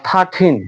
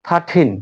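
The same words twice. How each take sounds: No difference in how they are said.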